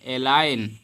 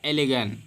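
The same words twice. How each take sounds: First: एलाइन with silent G, "e-line"; एलाइन ending in a long "ine"; correct reading. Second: एलिगन with the G sounded, "e-li-gan"; spelled-out एलिगन, short I and voiced G; literal misreading. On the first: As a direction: drop the G in एलाइन. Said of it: "इसको पढ़ेंगे". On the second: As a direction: read every letter in एलिगन, hard G. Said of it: "लेकिन इसको पढ़ेंगे एलाइन". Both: Shown as a demonstration.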